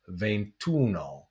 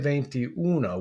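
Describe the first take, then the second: First: The final vowel of venti is dropped. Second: The final vowel of venti is kept. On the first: The speaker calls it right. "we say ventuno" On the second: The speaker calls it wrong. "we don't say veintiuno"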